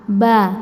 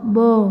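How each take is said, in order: First: The vowel is open, with the mouth opened. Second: The vowel is rounded, with the lips pushed out. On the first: The speaker calls it right. "dibuka aja" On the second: The speaker calls it wrong. "tidak dimonyongkan"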